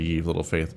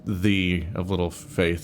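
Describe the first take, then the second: First: The first word begins with a y sound. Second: The first word begins with a th sound. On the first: "when people say ye" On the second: "it really is just the of little faith"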